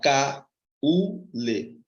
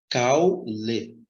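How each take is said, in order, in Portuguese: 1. A palavra é dividida em três sílabas separadas. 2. A palavra é dividida em duas sílabas. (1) "não são três impulsos. Você não fala caule" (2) "Dois impulsos sonoros"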